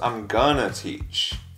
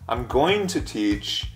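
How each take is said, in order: First: Going to is reduced to a short gonna. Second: Going to is said fully as two words. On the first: "becomes I'm gonna teach" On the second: "I'm going to teach becomes"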